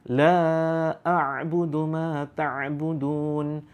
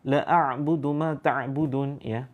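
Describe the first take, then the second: First: The vowel in the first word is held long. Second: The vowel in the first word is cut short. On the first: I do not worship what you worship. The speaker calls it right. "La-nya di sini, la-nya ada eh, di situ harus dibaca panjang" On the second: I truly worship what you worship. The speaker calls it wrong. "kalau kita baca pendek"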